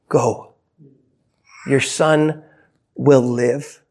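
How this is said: It is said in a gentle, tender tone. It is a kind reassurance to a worried father. "with just an air of compassion"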